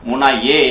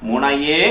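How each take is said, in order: No difference in how they are said.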